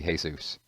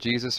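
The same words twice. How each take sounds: First: It is said differently from the Lord's name. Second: It is said the way the Lord's name is. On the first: "or is it like, uh, is he Jesus?" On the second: "like, you know, the Lord Jesus"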